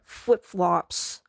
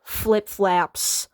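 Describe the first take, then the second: First: "flip-flops" said slowly, second part flops; correct flip-flops. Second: "Flip-flaps" with an a sound in flaps; mispronounced flip-flops. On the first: Teaching Melissa, slowly modelling "flip-flops". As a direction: stretch out "flip-flops" with a clear o. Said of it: "try to say flip-flops". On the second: Melissa confidently getting it wrong, "Flip-flaps". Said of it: "There's no flap in flip-flops". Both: Shown as a demonstration.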